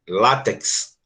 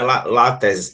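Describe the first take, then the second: First: The final x is sounded as ks. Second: The final x is not sounded as ks. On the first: The speaker calls it right. "aqui eu também tenho um som de C S" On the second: The speaker calls it wrong. "não é látex"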